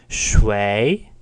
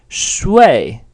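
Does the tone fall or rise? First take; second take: rise; fall. First: The pitch rises through the syllable. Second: The pitch falls through the syllable. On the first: It means who. "in a rising tone means who" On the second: It means to sleep. "in a falling tone means to sleep"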